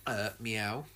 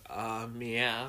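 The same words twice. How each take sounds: First: Soft, low mock Sonic meow; lightly voiced cartoon hedgehog meowing. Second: Lightly voiced Sonic meow; a hint of cartoon hedgehog. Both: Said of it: "that's what Sonic says in the trailers".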